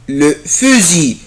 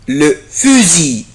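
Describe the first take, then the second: Both takes have the same delivery.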